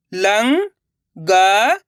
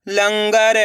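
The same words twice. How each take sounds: First: लंगर split slowly; syllable by syllable. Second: Said in the usual way. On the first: Shown as a demonstration. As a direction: sound out लंगर. (लंगर को अक्षर-अक्षर बोलना) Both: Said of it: "अब आगे देखिए".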